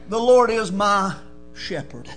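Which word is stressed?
shepherd. The stress falls on the word "shepherd".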